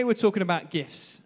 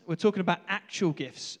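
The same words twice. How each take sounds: First: Said in the usual way. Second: "actual" punched as a correction; stress on ACTUAL. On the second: Real, not acted. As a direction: lean on "actual" to set it apart. Restates, stressing the word actual.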